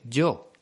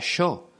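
First: It is said with a standard Spanish y sound. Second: It is said with the Uruguayan 'sh'-like y.

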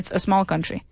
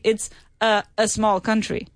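First: Small begins directly with the s sound. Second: An extra e sound comes before small. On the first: The speaker calls it right. "You say" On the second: The speaker calls it wrong. "you don't say"

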